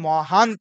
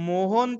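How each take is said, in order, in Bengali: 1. প্রথম স্বরটি 'a' ধ্বনি। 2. প্রথম স্বরটি 'o' ধ্বনি। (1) "হয় মহান্ত" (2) "মোহন্ত হয় না"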